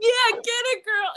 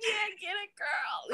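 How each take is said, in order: First: High, loud playful whoop; egging-on cheer. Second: High, softened playful cheer; small squealed cheer. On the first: Photographer hyping a couple, loud high cheer. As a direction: cheer her on at the top of your range. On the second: Photographer hyping a couple, high hushed cheer. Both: Retold or imitated.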